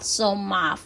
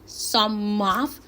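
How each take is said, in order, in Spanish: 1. La frase se reduce y se pronuncia unida. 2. La frase se dice en su forma completa.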